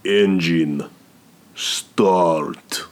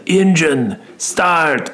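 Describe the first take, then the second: First: Put-on better Russian accent. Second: High, mock Russian accent, badly done; a lame try at a Russian mobster accent; clumsy Russian accent; terrible Russian accent. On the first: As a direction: do the Russian mobster accent properly. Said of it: "Yeah, way better". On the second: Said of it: "that's a terrible Russian accent".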